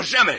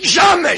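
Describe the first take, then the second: First: Said in the usual way. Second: High, loud "Jamais!" with a laugh; shouted denial. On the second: Acted. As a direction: explode with "Jamais!". Furax denies, half laughing.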